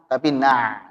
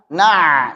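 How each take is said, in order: First: The 'ain has moderate, balanced pressure. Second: The 'ain is pressed too forcefully. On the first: The speaker calls it right. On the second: The speaker calls it wrong. "Jangan terlalu ditekan. Na, salah"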